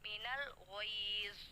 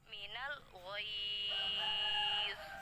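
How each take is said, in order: First: The long vowel is held for two beats. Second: The long vowel is held for four beats. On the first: "Dua harokat" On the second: "Empat harokat"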